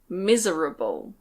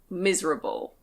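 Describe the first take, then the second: First: The middle vowel is fully pronounced. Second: The middle vowel is dropped. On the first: "You can say it that way" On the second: "but we usually say"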